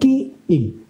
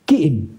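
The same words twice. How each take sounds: First: The two words are said slowly and apart. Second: The two words are run quickly together. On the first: The speaker calls it wrong. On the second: The speaker calls it right.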